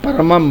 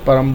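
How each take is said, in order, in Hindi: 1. शब्द के अंत में एक अतिरिक्त 'am' अक्षर है। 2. शब्द एक 'ram' अक्षर के बाद समाप्त होता है। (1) "परमम मत बोलें" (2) "परम लिखा है तो परम बोलें"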